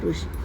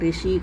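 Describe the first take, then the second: First: The first syllable has an 'ru' sound. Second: The first syllable has an 'ri' sound. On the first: The speaker calls it right. "ருஷி தான் correct" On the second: The speaker calls it wrong. "ரிஷி கிடையாது"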